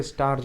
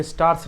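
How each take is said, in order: First: "स्टार्स" ending in a voiced z or j. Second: "स्टार्स" ending in a voiceless s. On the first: Teacher correcting the reading, "स्टार्स" with a z ending. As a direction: say "स्टार्स" as starz, lower, with a buzzing end. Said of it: "स्टार्स पढ़ा जाएगा". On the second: Teacher showing what not to read, "स्टार्स" with an s ending. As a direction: say "स्टार्स" as stars with a hissed final s. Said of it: "स्टार्स नहीं पढ़ा जाएगा". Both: Shown as a demonstration.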